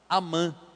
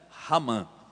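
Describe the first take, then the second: First: The name begins directly with a vowel. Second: The name begins with a breathy h-like sound.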